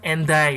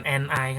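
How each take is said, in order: First: "and I" joined as "en-dai"; linked d pronunciation. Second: "and I" without a d, as "en ai"; unlinked pronunciation. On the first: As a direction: carry the d onto the vowel in "and I": en-DAI. ("and I" dibaca "en dai", bunyi d disambung) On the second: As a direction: drop the d in "and I": en-ai. ("and I" dibaca "en ai", tanpa bunyi d) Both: Shown as a demonstration. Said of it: "bukan and I kan".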